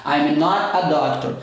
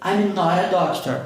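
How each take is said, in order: First: Slow "I'm not a doctor" with the T kept; careful pronunciation. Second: "not a" joined as "nora" in "I'm not a doctor"; fast linked pronunciation. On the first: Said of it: "Se eu for falar isso aqui rápido". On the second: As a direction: flap the T linking "not a". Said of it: "falar isso aqui rápido, vai virar". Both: Shown as a demonstration.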